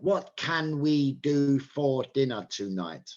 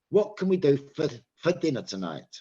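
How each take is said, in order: First: Every word, including 'for', is said fully and clearly. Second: The word 'for' is weak and reduced.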